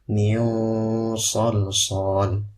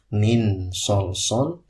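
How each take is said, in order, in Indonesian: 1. Huruf n disamarkan dan bersengau, mempersiapkan huruf s. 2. Huruf n diucapkan dengan jelas dan penuh. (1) "yang tepat adalah nunnya kita gunakan, lalu persiapan kepada huruf shad" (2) "bukan dibaca idhar"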